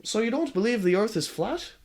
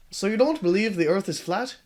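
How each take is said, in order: First: Put-on Marty's voice drifting into a different accent; Marty's accent sliding off; "So you don't believe" with the accent wandering; slipping accent. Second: Marty's question redone in his proper voice; "So you don't believe" back in Marty's usual voice; corrected Marty voice. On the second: Acted. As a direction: retake the line steadier. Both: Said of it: "His accent is changing".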